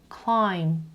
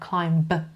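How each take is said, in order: First: The word ends in m with no b. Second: The word ends with an audible b sound. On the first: The speaker calls it right. "B is silent here" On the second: The speaker calls it wrong. "نمیگم climb"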